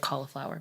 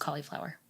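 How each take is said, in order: First: The word is said loosely with sounds reduced. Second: The word is said fully with every sound clear. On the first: The speaker calls it wrong. "your mouth gets lazy, so people say cauliflower" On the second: The speaker calls it right. "but it's cauliflower"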